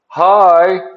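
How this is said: The greeting is said with excitement.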